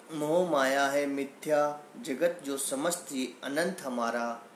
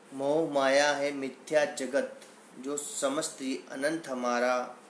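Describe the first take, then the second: Both takes have the same delivery.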